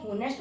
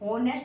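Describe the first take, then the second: First: The word begins with a sounded h. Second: The word begins with a vowel, h silent. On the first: The speaker calls it wrong. "आप इसको होनेस्ट मत पढ़ना" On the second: The speaker calls it right. "ऑनेस्ट होता है ये, इसमें H silent होता है"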